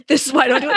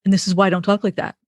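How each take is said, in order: First: Retells his line through a laugh, pitched up; laughing imitation of husband's excuse; half-amused husband quote; laughing while quoting husband. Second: Quoting husband. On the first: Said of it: "And so he would say". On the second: Retold or imitated. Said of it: "And then he'd say to me".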